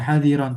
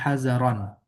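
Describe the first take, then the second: First: The middle consonant is a plain d sound. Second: The middle consonant is a z-like sound. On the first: The speaker calls it wrong. "Bukan hadiran" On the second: The speaker calls it right. "tapi hazaran"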